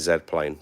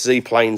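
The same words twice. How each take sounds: First: Z is said 'zed', the British way. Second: Z is said 'zee', the American way.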